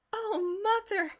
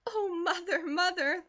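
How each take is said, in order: First: Much higher, louder joyful cry; thrilled girl cries out to her mother, louder; excited cry. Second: Laughing with half sob. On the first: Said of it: "cried Elnora". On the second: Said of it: "laughed Elnora, with a half sob in her voice". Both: A narrator's reading.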